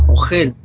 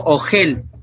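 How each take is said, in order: First: The middle throat sound is light and soft. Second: The middle throat sound is strong and harsh. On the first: The speaker calls it right. "una ligera pronunciación de una J" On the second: The speaker calls it wrong. "no Ogel"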